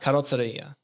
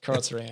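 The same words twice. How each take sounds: First: It is said with an Italian accent. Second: It is said with a plain English accent.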